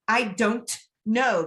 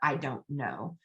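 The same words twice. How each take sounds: First: Each sound is carefully pronounced, including the T. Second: The words run together and the T is dropped. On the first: The speaker calls it wrong. "because that's how it's spelled" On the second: The speaker calls it right. "drop the T, it kind of becomes a"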